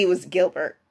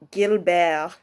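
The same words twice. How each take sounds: First: Said in the usual way. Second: Gilbert said the French way, no T at the end. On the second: Shown as a demonstration. Naming Lafayette's real name, Gilbert in French. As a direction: drop the final T of Gilbert, French style. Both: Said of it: "if you want to give it a French accent".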